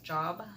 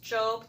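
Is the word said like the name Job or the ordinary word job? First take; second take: ordinary word; name. First: It sounds like the everyday word for work. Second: It sounds like the name from the Bible. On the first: "spelled like job" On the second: "but it's pronounced Job"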